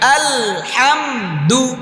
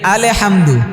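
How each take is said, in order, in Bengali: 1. L, H-এর সঙ্গে কোনো অতিরিক্ত স্বরধ্বনি ছাড়াই যুক্ত হয়। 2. L ধ্বনির পরে একটি অতিরিক্ত স্বরধ্বনি যোগ হয়। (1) "আবার হাতে চেপে আলহামদু" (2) "অনেকে এটা পড়ে কি পড়ে না? আলে হামদু হবে, হবেটা কি?"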